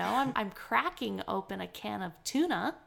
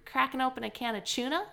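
First: The t in tuna sounds like t. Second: The t in tuna sounds like ch. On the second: "pronouncing the T as a ch"

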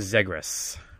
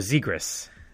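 First: The first vowel is short, as in 'egg'. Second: The first vowel is long, as in 'zebra'. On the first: The speaker calls it wrong. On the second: The speaker calls it right.

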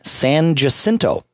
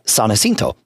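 First: The name is said with English pronunciation. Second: The name is said with Spanish pronunciation. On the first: This is how locals commonly say it. "Everybody in Austin calls that street San Jacinto" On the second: This is the original name of the saint. "San Jacinto is the name of that particular person, saint"

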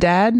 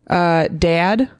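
First: The vowel is the speaker's later adopted one. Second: The vowel is the speaker's former regional one. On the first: This is how the speaker says it now. "instead of dad" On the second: This is how the speaker said it before college. "I used to say, dad"

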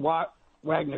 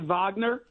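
First: The name is said with an American pronunciation. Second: The name is said with a German pronunciation. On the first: "if you're Lebanese, American, Wagner Group" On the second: "if you're German, you can say Wagner"

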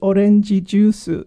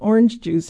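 First: It is said with a Japanese pronunciation. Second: It is said with an English pronunciation.

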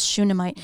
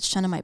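First: The first syllable sounds like shoe. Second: The first syllable does not sound like shoe. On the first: The speaker calls it right. "but it's Shunammite" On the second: The speaker calls it wrong. "I said Shunammite"

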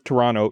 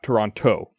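First: The second t sound is dropped. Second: The second t sound is clearly pronounced. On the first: This is how locals say it. The speaker calls it right. "People who are from Toronto don't say the T" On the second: This is how non-locals say it. The speaker calls it wrong.

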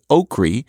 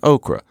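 First: The word ends in an 'ee' sound. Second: The word ends in an 'ah' sound. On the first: This is a regional Southern form. "many Southerners say okri" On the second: This is the standard form. "rather than okra"

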